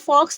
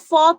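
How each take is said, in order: First: The word ends with a 'ks' sound. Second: The word ends in a vowel, no 'ks'. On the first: The speaker calls it wrong. "रिटन में आपको ये फॉक्स लगेगा" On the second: The speaker calls it right. "एक्स को silent है एकदम"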